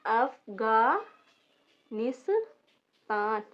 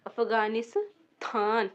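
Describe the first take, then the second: First: अफगानिस्तान spelled out very slowly, each syllable held; slow teaching pronunciation. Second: Said in the usual way. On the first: Shown as a demonstration. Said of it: "अब अफगानिस्तान". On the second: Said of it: "हम English में लिखते हैं कैसे".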